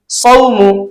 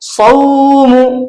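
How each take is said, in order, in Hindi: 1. स्वर नर्मी से और जल्दी बोला जाता है। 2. स्वर खींचा जाता है और लंबा किया जाता है। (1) "उसको नर्म लहजे में जल्दी पढ़ते हैं" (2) "खींच कर नहीं पढ़ा जाता है ... इस तरह से नहीं पढ़ेंगे"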